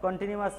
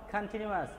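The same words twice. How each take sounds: First: "কন্টিনিউয়াস" with a rounded "kon" at the start; wrong pronunciation. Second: "কন্টিনিউয়াস" with an open, aspirated "khan"; corrected pronunciation. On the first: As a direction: say "কন্টিনিউয়াস" as "kon-tinuas", the mistaken way. ("কন্টিনিউয়াস" কন দিয়ে ভুল উচ্চারণ) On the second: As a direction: model "কন্টিনিউয়াস" as "khan-tinuas". ("কন্টিনিউয়াস" খান দিয়ে শুদ্ধ উচ্চারণ) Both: Shown as a demonstration. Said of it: "কন্টিনিউয়াস নয়".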